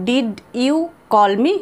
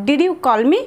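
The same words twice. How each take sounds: First: Unhurried, each word clear; slow. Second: Said in the usual way. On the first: Shown as a demonstration. Teacher modelling the question slowly for students. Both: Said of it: "তখন আমরা এইভাবে বলবো".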